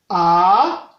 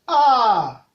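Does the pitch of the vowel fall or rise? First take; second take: rise; fall. First: The pitch starts low and rises. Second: The pitch starts high and falls. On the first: "Le ton montant se prononce avec abaissement dans la voix au premier niveau et élévation" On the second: "ce ton se prononce avec élévation dans la voix au premier niveau et abaissement"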